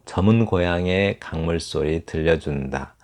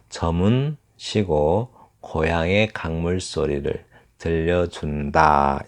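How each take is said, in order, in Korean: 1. '저문' 뒤에는 쉬지 않고 이어서 읽어요. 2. '저문' 바로 뒤에 쉼이 있어요. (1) "제가 이거 잘못 읽은 것 같아요" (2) "저문 쉬고 … 이렇게 읽어야 맞습니다"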